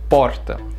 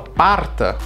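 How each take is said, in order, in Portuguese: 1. A primeira vogal soa como o. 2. A primeira vogal soa como a. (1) "o O, o vogal, tem que ser certo" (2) "Eu vou falar parta, a pessoa não vai entender"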